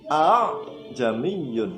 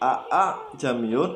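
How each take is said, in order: First: The second hamzah is softened between hamzah and alif. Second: The second hamzah is not softened toward alif. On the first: The speaker calls it right. "yang hamzah yang kedua ini antara hamzah dan alif" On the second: The speaker calls it wrong. "Bukan dibaca a a jamiyun ... salah"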